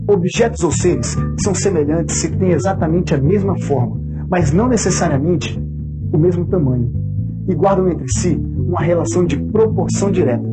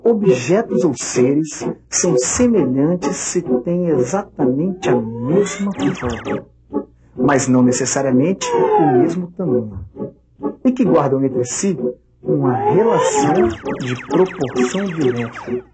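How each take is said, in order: First: It is read at normal speed. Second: It is read slowly.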